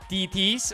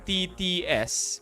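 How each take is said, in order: First: It is said as just two syllables. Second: It is said as three separate letter syllables. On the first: "Gusto nyo two syllables na lang" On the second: "ayaw nyo na ng three syllables eh"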